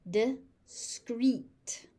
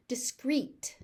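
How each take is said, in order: First: "Discreet" as di, pause, screet; syllable by syllable. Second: Said in the usual way. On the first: Shown as a demonstration. Teacher sounding out "Discreet" for learners, syllable by syllable. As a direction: split "Discreet" into two beats.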